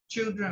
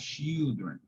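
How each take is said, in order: First: It is said with an English pronunciation. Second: It is said with a Portuguese pronunciation. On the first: The speaker calls it right. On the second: The speaker calls it wrong.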